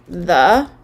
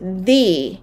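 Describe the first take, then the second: First: The word ends in a short 'uh' vowel. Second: The word ends in a long 'ee' vowel. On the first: "we've got the schwa at the end" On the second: "change it to the when they want to stress"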